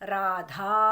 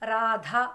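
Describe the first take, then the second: First: The final vowel is long. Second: The final vowel is short. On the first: This is the Sanskrit form of the name. "సంస్కృతంలో అయితే ఎలా ఉంటుంది? రాధా" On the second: This is the everyday Telugu form of the name. "రాధ అంటారు"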